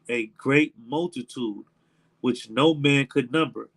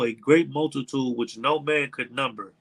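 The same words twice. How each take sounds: First: The phrase is read slowly with pauses. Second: The phrase is read at a normal pace.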